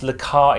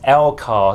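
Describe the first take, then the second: First: The word begins with a 'la' sound. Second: The word begins with an 'el' sound. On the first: The speaker calls it wrong. "I know I mispronounced Lakar" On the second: The speaker calls it right. "It's meant to be pronounced Elcar"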